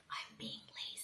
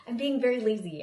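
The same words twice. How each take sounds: First: Whispered playful confession. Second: Louder, leaning on very; loud admission. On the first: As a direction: drop to a breathy whisper, teasing. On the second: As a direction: announce it boldly, playfully. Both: Real, not acted.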